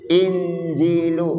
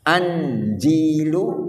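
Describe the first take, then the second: First: The word begins with an 'i' vowel. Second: The word begins with an 'a' vowel. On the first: "Injil dibaca kasroh hamzahnya in" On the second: "dan boleh dibaca fathah an"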